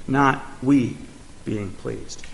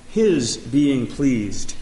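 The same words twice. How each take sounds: First: "we" contrasted, then fading much softer on "being pleased"; stress on we. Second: "his" leaned on, slow and deliberate; slowly, weighting the word "his"; "his" set apart from "we"; stress on his. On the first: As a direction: set "we" against "his", trailing off low. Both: Shown as a demonstration. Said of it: "the emphasis is on".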